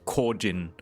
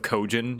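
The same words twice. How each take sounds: First: It is pronounced in a Japanese style. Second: It is pronounced in an English style. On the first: The speaker calls it right. "the proper like Japanese style pronunciation" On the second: The speaker calls it wrong. "instead of"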